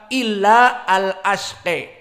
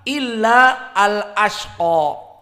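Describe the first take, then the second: First: The final vowel is bent strongly toward e. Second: The final vowel is a fully open a. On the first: "Al-Kisai membaca" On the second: "membaca fathah"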